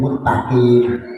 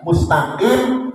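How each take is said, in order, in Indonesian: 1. Bunyi s diganti dengan t yang dobel. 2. Bunyi s dibaca dengan jelas.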